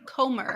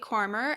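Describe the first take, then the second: First: No R sound comes before the M. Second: An R sound comes before the M. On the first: The speaker calls it right. "There's one R" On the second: The speaker calls it wrong. "Am I saying it wrong?"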